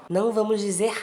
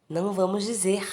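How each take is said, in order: Both takes have the same delivery.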